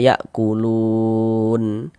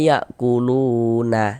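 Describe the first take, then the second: First: The word ends on a bare n sound. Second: The word ends with an extra vowel a. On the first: The speaker calls it right. "kalau kita berwakaf di huruf nun kita baca ya kulun" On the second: The speaker calls it wrong. "Jangan dibaca ya kuluna, jangan, salah"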